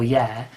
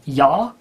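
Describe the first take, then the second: First: It is said with a British vowel, like 'yeah'. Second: It is said with a flat 'ya' vowel. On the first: "is the sort of British pronunciation" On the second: "whenever they said yeah, it came out as ya"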